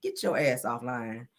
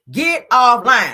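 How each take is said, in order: First: Slow, low and softer, a stern warning. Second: Louder and very slow, drawn out; slow loud command. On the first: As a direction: lean in and say it slowly, low and hushed. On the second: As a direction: bark it out slowly as a final order. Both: Retold or imitated. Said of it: "I said".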